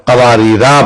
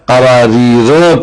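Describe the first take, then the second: First: قواریرا with long final "raa"; alif read long. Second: قواریر as "qawaareera", short final a; alif left silent. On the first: Teacher shows the other reading, long-ending قواریرا. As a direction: hold the alif at the end of قواریرا. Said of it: "دوسرے مقام پر". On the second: Teacher shows one reading, قواریر with short "ra". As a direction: cut the last vowel of قواریر short. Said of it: "الف نہیں پڑھا جائے گا". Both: Shown as a demonstration.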